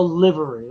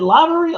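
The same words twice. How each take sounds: First: "livery" with first vowel as in "give"; short I in LIVERY. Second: "livery" with first vowel like "eye"; long I in LIVERY. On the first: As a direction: say "livery" as LIH-vuh-ree. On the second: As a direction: say "livery" as LIE-vuh-ree. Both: Shown as a demonstration. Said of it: "how do you say?".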